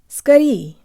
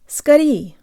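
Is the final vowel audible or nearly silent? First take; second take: nearly silent; nearly silent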